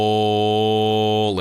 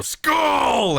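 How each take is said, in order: First: Loud, falling group chant of Skull; rowdy toast shout. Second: Very high, loud shouted Skull; roaring toast shout. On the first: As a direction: bellow the toast like a warrior. Warriors chant toast in hall. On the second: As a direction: roar it with the whole hall. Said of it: "And the others go". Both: Acted.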